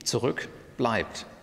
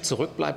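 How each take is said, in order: First: It is said as two separate words. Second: It is said as one connected word. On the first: The particle and verb were moved separately. "das hören Sie an der Phonologie" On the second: The particle and verb stay together in one word. "das ist also das richtige Verb, zurückbleiben"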